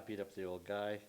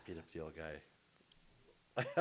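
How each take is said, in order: First: Said in the usual way. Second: Drawn-out, low and quiet confession; slow deadpan inmate. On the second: Acted. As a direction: drag it out softly as a convict's answer. Repeats inmate's answer for the joke.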